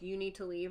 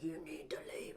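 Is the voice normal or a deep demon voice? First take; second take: normal; demon voice. First: It is said in a normal voice. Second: It is said in a deep demon voice.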